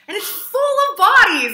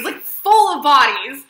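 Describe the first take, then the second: First: Shocked reveal. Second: "full of bodies" slowed and hammered, loud; emphatic, slowed "full of bodies"; stress on full. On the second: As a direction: drag out "full of bodies" for shock. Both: Real, not acted.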